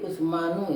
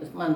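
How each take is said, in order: First: The name ends with an extra syllable 'nu'. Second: The name ends without the extra syllable. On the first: The speaker calls it wrong. "tapi tidak bisa dibaca Usmanu" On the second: The speaker calls it right. "dibacanya Usman"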